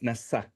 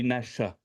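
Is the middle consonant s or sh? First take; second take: s; sh. First: The middle consonant is an s sound. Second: The middle consonant is a sh sound. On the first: The speaker calls it right. "so it's Nasa" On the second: The speaker calls it wrong. "if it was Sha, it will be the, the the dot will be on the other side"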